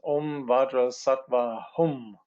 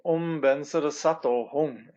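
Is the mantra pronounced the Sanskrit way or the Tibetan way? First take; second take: Sanskrit; Tibetan. First: The mantra uses the Sanskrit pronunciation. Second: The mantra uses the Tibetan pronunciation. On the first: "if you look at the Sanskrit, then it says" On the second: "sometimes we say Om Bensara Sato Hum in Tibetan"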